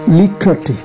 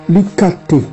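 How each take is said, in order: The two takes are said the same way.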